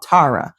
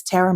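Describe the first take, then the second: First: Tara said as TAH-ra; mock mispronunciation. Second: Said in the usual way. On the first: Mimicking people who get the name wrong, Tara mispronounced as TAH-ra. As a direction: say Tara with a broad ah, as others do. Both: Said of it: "all those people who love to be out here talking about Tara".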